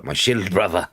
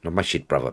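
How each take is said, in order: First: "shield" stressed, with its L and D sounded; SHIELD clearly articulated. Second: "shit" with a short vowel and no L; wrong word SHIT. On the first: Streamer correcting a misreading, careful stressed "shield". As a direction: punch and fully pronounce "shield". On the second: Streamer correcting a misreading, "shit" as the wrong word. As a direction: say "shit" as the mistaken version of "shield". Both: Shown as a demonstration.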